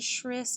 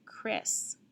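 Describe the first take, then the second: First: It begins with a sh sound, as in ship. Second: It begins with a k sound, as in kite. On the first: The speaker calls it wrong. "If I tried the other one, Shris doesn't sound right" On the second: The speaker calls it right. "the one that does sound right"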